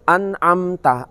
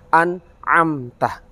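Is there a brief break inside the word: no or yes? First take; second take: no; yes. First: It is read quickly with no break inside. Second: It is read with a short stop inside. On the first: The speaker calls it wrong. "Ketika kita membaca secara cepat" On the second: The speaker calls it right. "berikan spasi"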